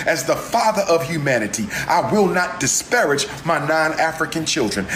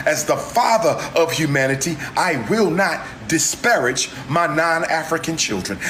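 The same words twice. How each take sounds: The two takes are said the same way.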